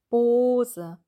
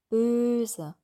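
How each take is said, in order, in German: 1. Der erste Vokal ist ein hinteres gerundetes o. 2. Der erste Vokal ist ein vorderes gerundetes ö. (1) "mit dem O, das ist der Zungenrücken hinten" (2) "Zungenmittelteil vor"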